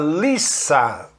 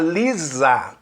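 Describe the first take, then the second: First: The middle consonant is an s sound. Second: The middle consonant is a z sound. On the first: The speaker calls it right. "Quando é escrito com S, é Lisa" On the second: The speaker calls it wrong. "Não é a Lisa, como a gente vê na dublagem do desenho aqui do Brasil"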